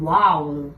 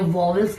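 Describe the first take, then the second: First: The word is said with a British-American accent. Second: The word is said with an Indian accent. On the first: "British યા American pronunciation ની અંદર એને કહેવાશે vowel" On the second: "Indian pronunciation ની અંદર એને vowels કહેવાય"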